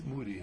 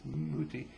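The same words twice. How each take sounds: First: "Mutti" with a softened, d-like t; German pronunciation. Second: "Mutti" with a crisp t in the middle; Swiss pronunciation. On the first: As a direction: say "Mutti" as moo-dee. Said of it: "but in Germany, it's Mutti". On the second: Saying the Swiss word for mother, "Mutti" with a clear t. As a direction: say "Mutti" as moo-tee, clear t. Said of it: "In Switzerland". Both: Shown as a demonstration.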